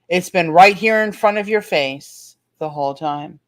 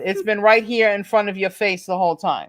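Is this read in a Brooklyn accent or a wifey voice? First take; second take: wifey voice; Brooklyn accent. First: It is read in a put-on wifely voice. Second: It is read in a Brooklyn accent. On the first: "she's saying it in her wifey voice" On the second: "read it with your Brooklyn sound"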